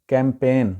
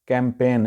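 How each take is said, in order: The two takes are said the same way.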